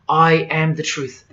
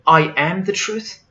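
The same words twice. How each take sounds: First: Slow, falling "I am the truth"; solemn declaration. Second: "I am the truth" rising into a question; incredulous question. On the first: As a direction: state "I am the truth" with slow, settled finality. Quotes the claim as statement. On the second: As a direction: query "I am the truth" with a lifted ending. Questions the claim in disbelief. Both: Retold or imitated.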